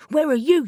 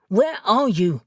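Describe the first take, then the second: First: Calling out. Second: Said in the usual way. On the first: Acted. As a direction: shout it into the emptiness. Searching for vanished Reuben.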